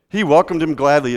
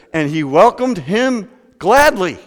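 First: Said in the usual way. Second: Louder, higher, slow with gladly leaned on; slow and emphatic, gladly stretched; building emphasis. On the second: Shown as a demonstration. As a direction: land on gladly. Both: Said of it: "are you ready for this?".

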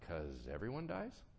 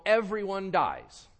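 First: Softer, lower, rising into a question; understated answer with a questioning lift; tentative answer. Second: Loud, high, slow proclamation; big emphatic declaration, pitched up and drawn out; breezy stock answer. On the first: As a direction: offer it quietly as a questioning reply. God's answer to personal grief. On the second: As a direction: proclaim it slowly as an obvious general truth. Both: Acted.

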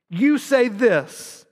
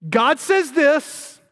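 First: "you say this" slow, with "you" punched; stress on you. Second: "God says this" slow, high, with "says" leaned on; stress on God says. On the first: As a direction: stretch out "you say this", accusing. Contrasting what they say. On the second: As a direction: drag out "God says this" to set it against them. Contrasting what God says. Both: Shown as a demonstration.

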